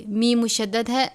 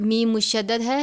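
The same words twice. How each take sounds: The two takes are said the same way.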